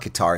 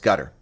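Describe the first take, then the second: First: It is pronounced the American way, following the spelling. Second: It is pronounced the Arabic way, like 'gutter'. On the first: The speaker calls it wrong. "it's not the way Americans pronounce it" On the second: The speaker calls it right. "It's the way the Arabs pronounce it"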